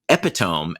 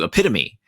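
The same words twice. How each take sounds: First: It is said with three syllables, ending like 'tome'. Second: It is said with four syllables, ending in 'mee'. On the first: The speaker calls it wrong. "I made the mistake" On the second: The speaker calls it right. "as opposed to"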